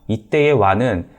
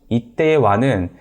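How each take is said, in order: No difference in how they are said.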